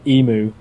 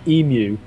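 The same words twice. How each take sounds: First: It is said the American way. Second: It is said in a non-American way. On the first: "American to say Emu" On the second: "although I'd say Emu"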